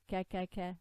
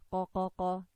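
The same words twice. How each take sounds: First: Ka with a light front k; light kaf. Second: Qa with a heavy k far back in the throat; deep qaf. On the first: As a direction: say ka with a light a as in apple. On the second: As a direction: say qa with a back k and a dark a. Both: Shown as a demonstration.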